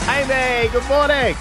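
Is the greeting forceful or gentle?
forceful. The greeting is loud and forceful.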